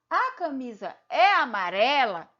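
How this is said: It is said with questioning intonation. The speaker is asking a question. "eu mudo o tom e esse tom eu percebo que é uma que é uma pergunta"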